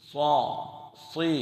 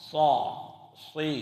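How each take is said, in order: No difference in how they are said.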